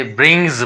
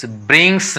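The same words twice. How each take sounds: First: ब्रिंग्स with a buzzed z at the end; voiced Z ending. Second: ब्रिंग्स with a hissed s at the end; wrong S ending. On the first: Teacher corrects the reading, ब्रिंग्स with final z. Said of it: "पढ़ा जाएगा". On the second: Teacher shows the reading to avoid, ब्रिंग्स with final s. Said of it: "नहीं पढ़ेंगे". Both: Shown as a demonstration.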